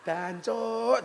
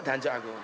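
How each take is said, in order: First: Sharp, higher "Dancuk," blurted out; self-cursing outburst. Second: Said in the usual way. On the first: Retold or imitated. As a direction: spit "Dancuk," at yourself, higher. (misuh "Dancuk," dhuwur)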